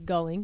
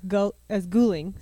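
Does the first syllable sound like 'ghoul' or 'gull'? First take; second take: gull; ghoul. First: The first syllable rhymes with 'dull'. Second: The first syllable rhymes with 'cool'. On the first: This is how the spelling suggests it. "It's supposed to be Gulling because it's G-U" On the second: This is how the family prefers it. "our family likes the way it sounds as Gulling"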